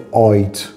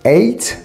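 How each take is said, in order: First: The vowel sounds like 'eye', British-style. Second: The vowel sounds like 'ay', standard. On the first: "گفت eight" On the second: "به eight هشت"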